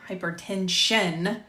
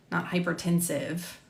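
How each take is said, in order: First: "hypertension" slowed, with the last syllable drawn out; self-correction. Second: Said in the usual way. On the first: Real, not acted. Narrator fixing a misread word, slow deliberate "hypertension".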